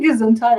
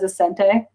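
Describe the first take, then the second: First: It is said in full as 'gesundheit'. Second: It is said garbled, sounding like 'ascente'. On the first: The speaker calls it right. "Are you saying Gesundheit?" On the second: The speaker calls it wrong. "She she says it wrong. She says Ascente"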